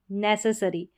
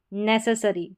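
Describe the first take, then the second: No difference in how they are said.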